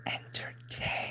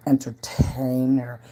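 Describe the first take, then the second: First: Faint trailing whisper; echoing the word entertainer in a hush; barely audible whisper. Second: Breathy stage whisper; teasing hushed whisper. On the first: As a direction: whisper entertainer even softer, nearly gone. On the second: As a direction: whisper the word entertainer slowly. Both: Pretend. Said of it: "I'm a".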